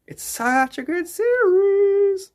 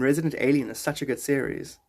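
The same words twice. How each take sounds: First: Much higher and drawn out slowly; mock high singsong; high slow put-on voice. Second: Said in the usual way. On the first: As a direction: stretch it out in a silly high voice. Repeats line in put-on voice.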